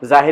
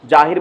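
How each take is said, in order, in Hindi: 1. शब्द की शुरुआत z की आवाज़ से होती है। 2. शब्द की शुरुआत j की आवाज़ से होती है। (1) "जाहिर होता है" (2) "जाहिर बोल देते होंगे"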